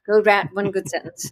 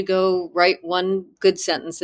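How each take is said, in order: First: Lightly imitated South African accent; "write" as "rat", a hint of South African. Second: Said in the usual way. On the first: Student quoting her writing teacher's assignment, light South African accent. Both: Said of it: "in her South African accent".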